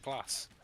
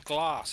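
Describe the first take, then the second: First: It is said in a northern English accent. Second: It is said in a southern English accent.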